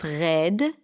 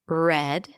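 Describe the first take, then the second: First: The R is a dominant Israeli throat R. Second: The R is a smooth American R sound. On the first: "notice what happened to the Israeli R when I pronounce it" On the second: "a strong R would be red"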